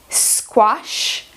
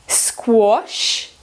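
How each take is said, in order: No difference in how they are said.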